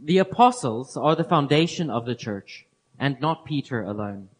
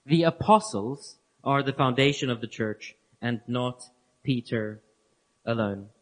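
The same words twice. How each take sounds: First: Said in the usual way. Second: Spaced-out emphatic restatement that fades down. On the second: Shown as a demonstration. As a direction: pause before Peter and before alone, sinking lower. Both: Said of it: "repeats the statement word for word".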